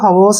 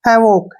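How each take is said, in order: First: The word ends with an s sound. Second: The word ends with a k sound. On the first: The speaker calls it wrong. "इसको हवोस नहीं बोलना आपने" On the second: The speaker calls it right. "हैवॉक क्या पढ़ेंगे इसको?"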